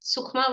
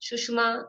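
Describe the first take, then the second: First: The middle consonant is a kh sound. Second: The middle consonant is a sh sound. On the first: This form is easier to say. "सुखमा word बोलने में थोड़ा easy रहता है" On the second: This is the other form in use. "नहीं तो सुषमा भी दिया है"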